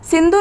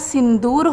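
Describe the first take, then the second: First: The second vowel is a short u. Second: The second vowel is a long u. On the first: The speaker calls it wrong. "सिंदूर नहीं होगा" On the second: The speaker calls it right. "दा में बड़ा ऊ की मात्रा लगेगी"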